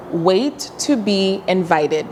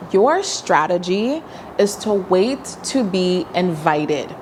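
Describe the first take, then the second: First: "Wait to be invited" said slowly, each word weighted; slow emphatic repeat. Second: Said in the usual way. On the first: Shown as a demonstration. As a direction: spell out "Wait to be invited" deliberately.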